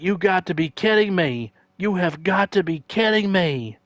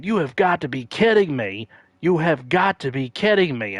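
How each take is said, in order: First: Much higher, exasperated repeat; announcer disbelief. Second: Higher, louder exasperated repeat; announcer disbelief. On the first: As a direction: plead in disbelief at the call. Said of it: "And he's like". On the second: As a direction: sell the announcer's outrage. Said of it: "the announcer kept saying". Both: Retold or imitated.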